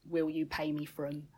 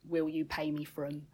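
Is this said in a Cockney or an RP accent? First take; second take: Cockney; Cockney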